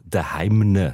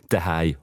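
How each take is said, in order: First: The word ends with an added ending containing n. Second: The word ends plainly, with no added ending. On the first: "mit einem «n» noch drin" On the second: "ohne Endung"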